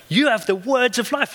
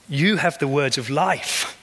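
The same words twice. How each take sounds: First: Much higher, ringing cry of faith; fervent exclamation. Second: Gentle, slow statement of faith; sincere. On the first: Real, not acted. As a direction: shout it out as the peak. Climax of the sermon. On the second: Retold or imitated. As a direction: say it simply, as a settled truth. Peter's quiet answer.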